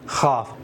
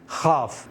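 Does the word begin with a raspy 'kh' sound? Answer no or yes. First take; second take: yes; yes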